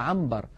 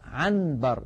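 First: The n before b turns into an m. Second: The n before b is a clear n. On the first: The speaker calls it right. "الإنسان بفطرته يا إخوة يقلب النون الساكنة إذا أتى بعدها باء إلى ميم" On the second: The speaker calls it wrong. "لا ينطق النون صريحة هكذا"

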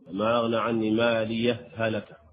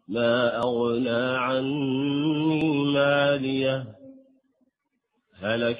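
First: The two h sounds merge with no break. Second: A full stop with an intake of breath separates them. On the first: "حسب قاعدة المثلين وأولي مثل الإدغام" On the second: "الوقف مع ما لي مع التنفس ثم النطق"

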